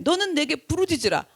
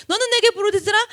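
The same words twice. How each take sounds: First: Said in the usual way. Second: 너는 내게 부르짖으라 quoted higher and louder, rising on 내게; emphatic quotation. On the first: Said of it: "예레미야서 삼십삼 장 삼 절에". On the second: Shown as a demonstration. Preacher throwing God's promise back, emphatic. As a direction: proclaim 내게 with force. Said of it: "그런데".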